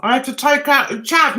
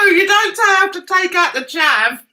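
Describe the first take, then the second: First: Said in the usual way. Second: "don't" hit higher and louder; stress on don't. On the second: Real, not acted. Correcting a viewer's comment, stress on "don't". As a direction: lean hard on "don't" to correct them.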